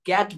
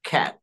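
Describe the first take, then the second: First: The first k sound has no puff of air. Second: The first k sound has a strong puff of air. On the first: The speaker calls it wrong. "ক্যাট বলবো না" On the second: The speaker calls it right. "এটাকে আমরা বলবো খ্যাট"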